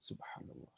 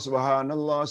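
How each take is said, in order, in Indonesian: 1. Diucapkan dengan pelan, hampir seperti bisikan. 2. Diucapkan dengan keras, dengan suara yang dinaikkan. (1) "dapat didengar oleh telinganya sendiri. Cukup"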